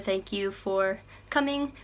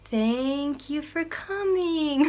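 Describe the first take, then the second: First: It is said quickly and casually. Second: It is said very slowly.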